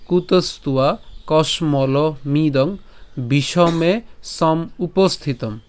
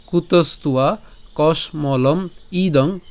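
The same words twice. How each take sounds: First: কসমলমিদং said slowly as one word; slow recitation, joined. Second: কসমলম ইদং said slowly with a break before ইদং; slow recitation, split. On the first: Teacher rereading the line the other way, slow. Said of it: "অথবা". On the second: Teacher rereading the first line one way, slow. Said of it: "প্রথম লাইনটা আরেকবার বলি". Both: Shown as a demonstration.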